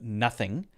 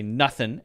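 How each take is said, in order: First: The word ends with a full 'ing' sound. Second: The word ends with a clipped 'nuthin' sound. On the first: "instead of nothing" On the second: "very informal instead of nothing"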